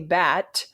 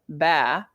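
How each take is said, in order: First: The word ends with a clear t sound. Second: The word ends without any t sound. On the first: The speaker calls it right. "say bat" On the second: The speaker calls it wrong. "they go ba"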